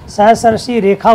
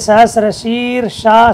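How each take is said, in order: First: The consonant after 'shir' is a 'kh' sound. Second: The consonant after 'shir' is an 'sh' sound. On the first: The speaker calls it right. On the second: The speaker calls it wrong.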